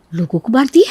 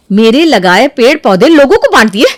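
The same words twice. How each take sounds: First: Stunned question, rising at the end; disbelieving echo. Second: Loud, outraged repeat; angry disbelief. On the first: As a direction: repeat it back in disbelief. First stunned echo of news. (अविश्वास भरा सवाल) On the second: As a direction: throw it back at her, outraged. Second take erupts in anger. (गुस्से में ज़ोर से दोहराना) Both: Acted.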